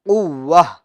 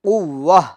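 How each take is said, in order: First: The word ends with a soft h sound. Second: The same.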